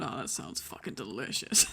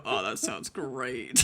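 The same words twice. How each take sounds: First: Lower, slow dreamy imitation of a friend; mock him savoring the thought. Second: Lower, slow, dreamy mock of a friend; mocking his dreamy voice. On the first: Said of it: "there's you over there going". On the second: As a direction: drawl it lazily like he's daydreaming. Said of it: "I heard you go".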